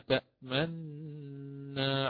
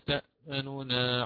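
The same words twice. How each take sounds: First: The two n sounds merge with rounded lips. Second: The first n gets a brief, quick partial vowel. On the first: "ثم نأتي بوجه الإشمام" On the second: "فنقرأ بوجه الاختلاس المقدم أداء"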